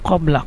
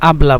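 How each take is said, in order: First: The word begins with a back k sound. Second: The word begins with a glottal stop. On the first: This is the standard form. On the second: This is how Egyptians say it. "কবলাকে মিশরেরা আবলা বলে, কারণ কফকে হামজা বলে"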